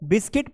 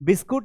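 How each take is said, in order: First: The word ends with a short 'kit' sound. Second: The word ends with a 'kut' sound. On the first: The speaker calls it right. "इसको बिस्किट पढ़ना है" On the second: The speaker calls it wrong. "बिस्कुट नहीं पढ़ना है"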